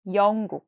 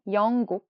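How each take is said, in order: Both takes have the same delivery.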